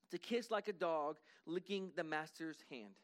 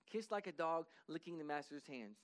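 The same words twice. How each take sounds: First: Slow, weighty emphasis on like; slow, stressed definition. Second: Said in the usual way. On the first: Shown as a demonstration. Preacher to congregation, slow and deliberate. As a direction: spell out each word slowly. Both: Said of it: "literally means".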